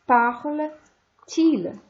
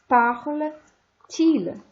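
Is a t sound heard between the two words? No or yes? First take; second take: yes; yes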